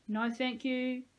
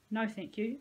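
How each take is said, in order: First: Higher, prissy-polite echo; mocking echo. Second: Said in the usual way. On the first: A narrator's reading. Peyton parroting Dean's refusal, mocking echo. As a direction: mimic the polite refusal to shame him.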